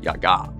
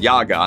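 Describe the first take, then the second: First: It is pronounced the original Slavic way. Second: It is pronounced the common English way. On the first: This is the original pronunciation. "in the original Slavic, you pronounce it Yaga" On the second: This is how popular culture says it. "you're more likely to hear it pronounced Yaga in popular culture"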